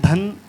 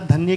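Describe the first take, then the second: First: The word ends without the 'ya' sound. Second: The word ends with a clear 'ya' sound. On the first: The speaker calls it wrong. "धन सुनाई दिया मुझे" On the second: The speaker calls it right. "आपका धन्य की जगह"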